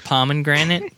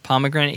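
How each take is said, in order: First: Pomegranate with an added N: "pomen-granate"; mispronounced pomegranate. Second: Pomegranate without the extra N; pomegranate, middle syllable just "muh"; correct pomegranate. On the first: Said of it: "I had an N in there". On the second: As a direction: say pomegranate as "POM-uh-granate". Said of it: "if you say it fast enough". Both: Shown as a demonstration.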